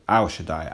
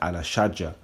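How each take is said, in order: First: The second word ends with a 'dai' sound. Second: The second word ends with a 'ja' sound.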